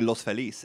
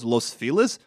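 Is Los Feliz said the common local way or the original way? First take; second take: original; common. First: The name is said in its original pronunciation. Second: The name is said in the common local pronunciation. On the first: This is what the name literally is. "it's literally Los Feliz" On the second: This is how most people say it. "everyone goes Los Feliz"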